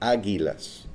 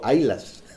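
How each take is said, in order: First: The middle 'gu' sound is clearly pronounced. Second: The middle 'gu' sound is dropped. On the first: The speaker calls it right. "Son águilas" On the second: The speaker calls it wrong. "no se dice así"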